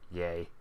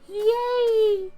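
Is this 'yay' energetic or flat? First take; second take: flat; energetic. First: It is said with flat, low energy. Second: It is said with lively, peppy energy. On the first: The speaker calls it wrong. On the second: The speaker calls it right. "That should have been"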